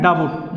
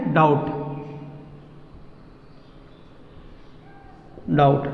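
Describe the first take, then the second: First: डाबूट said wrongly with the B sounded, "da-boot"; wrong pronunciation. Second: डाउट said with a silent B, "daut"; correct pronunciation. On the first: Teacher showing students the wrong way to say डाबूट. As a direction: sound out the B in डाबूट as some people do. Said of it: "जो गलत है". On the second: Teacher showing students the right way to say डाउट. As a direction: say डाउट with no B sound. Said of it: "इसको बोलना है क्या". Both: Shown as a demonstration.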